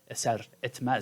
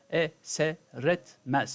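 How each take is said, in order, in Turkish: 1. İki kelime bir duraklamayla ayrı tutulur. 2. İki kelime ulanarak, ara verilmeden söylenir. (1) "şeklinde söylemediğimiz için" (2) "burada bir ulama dikkatimizi çekiyor"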